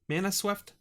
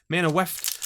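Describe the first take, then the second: First: The second word begins with an s sound. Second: The second word begins with a w sound. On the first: The speaker calls it wrong. "Why do I say Mana Swept? There's no S in there" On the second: The speaker calls it right. "It's Mana Weft"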